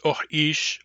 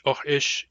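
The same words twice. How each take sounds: First: "oh ish" with short "oh", long "ish"; short-long variant. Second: "oh ish" with both vowels short; short-short variant. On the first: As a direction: stretch the vowel of "ish" in "oh ish". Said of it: "short long". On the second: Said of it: "it's pronounced short, short". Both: Shown as a demonstration.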